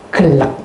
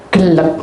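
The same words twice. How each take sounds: The two takes are said the same way.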